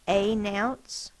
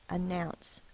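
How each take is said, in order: First: The first vowel is a full, long 'ay'. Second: The first vowel is a weak, reduced 'uh'. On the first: The speaker calls it wrong. "that's not how we pronounce it" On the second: The speaker calls it right. "It needs to be the unstressed a"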